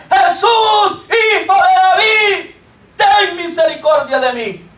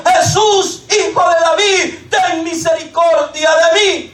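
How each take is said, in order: First: Higher, more forceful shout of the plea, slowing down; shouting louder. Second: Calling out. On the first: Blind man shouting over the crowd, higher insistent cry. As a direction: push the cry even harder this time. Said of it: "con más fuerza comenzó a gritar". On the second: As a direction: cry out to Jesus from the roadside. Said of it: "comenzó a dar voces diciendo". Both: Acted.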